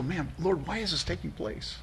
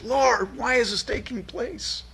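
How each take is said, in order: First: Much softer, tearful whisper-like plea; soft tearful lament; weeping plea. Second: Much higher, anguished plea to God; high anguished lament; anguished cry. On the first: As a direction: let it break quietly, almost weeping. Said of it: "do you weep". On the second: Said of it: "where Habakkuk's heart is". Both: Acted.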